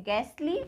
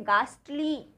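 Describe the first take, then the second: First: गैसली with a front "ae" vowel as in gas; गैसली, open front vowel and silent H; first pronunciation. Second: गास्टली with a long "aah" vowel; slow गास्टली, first vowel as in father; second pronunciation. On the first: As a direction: say गैसली as "GAST-lee" with the vowel of cat. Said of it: "दो तरह से pronounce करते हैं". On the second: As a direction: say गास्टली as "GAAST-lee", H silent. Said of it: "second हम इसको बोलते हैं". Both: Shown as a demonstration.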